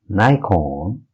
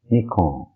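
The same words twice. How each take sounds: First: It is said with an American pronunciation. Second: It is said with a Japanese pronunciation. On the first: "in U S" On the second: "and in Japanese"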